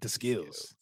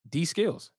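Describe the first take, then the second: First: The first part is said like the word 'the'. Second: The first part is said like the letter D. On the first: "Maybe he does pronounce it The Skills" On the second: "not D Skills"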